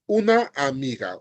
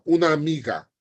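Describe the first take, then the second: First: "una amiga" as two separate words, both a's sounded; words separated. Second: "una amiga" blended into one smooth word; words linked. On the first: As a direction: split "una amiga", holding the end of "una". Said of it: "not una amiga". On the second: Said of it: "just like that". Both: Shown as a demonstration.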